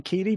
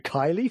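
First: The name is said the usual English way. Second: The name sounds like Kylie. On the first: This is how it is said in England. "We would say Keighley" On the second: This is a personal habit for no clear reason. "in my head, I always sort of go Kylie"

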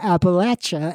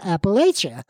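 First: It is said with the local pronunciation. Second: It is said with a nonlocal pronunciation. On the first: This is how people from the region say it. The speaker calls it right. "I am going to say Appalachia" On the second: This is how outsiders say it. The speaker calls it wrong. "and not Appalachia"

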